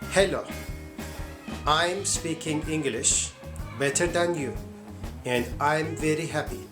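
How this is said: It is spoken with a Turkish accent. "this is Turkish accent"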